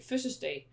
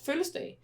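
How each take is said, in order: First: The L sound is left out. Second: The S sound is left out. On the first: "they don't pronounce the L" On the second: "some people that don't pronounce the S"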